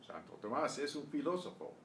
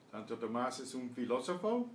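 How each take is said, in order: First: "Santo Tomás es un filósofo" as a statement, settling down at the end; answer tune. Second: "¿Santo Tomás es un filósofo?" climbing at the end; question tune. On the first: Teacher confirming for students, "Santo Tomás es un filósofo" with falling statement tune. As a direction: let "filósofo" fall away. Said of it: "answer the questions". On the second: Teacher quizzing students, "¿Santo Tomás es un filósofo?" with rising question tune. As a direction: lift the last syllables of "filósofo". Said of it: "answer the questions as I read them". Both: Shown as a demonstration.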